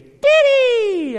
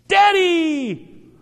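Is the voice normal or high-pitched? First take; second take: high-pitched; normal. First: It is said in a high-pitched child's voice. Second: It is said in a normal-pitched voice.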